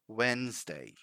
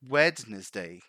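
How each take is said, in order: First: The first d is silent in the middle. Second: The first d is pronounced in the middle. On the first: The speaker calls it right. "we simply say Wednesday" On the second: The speaker calls it wrong. "Some people try to pronounce that D, the first D"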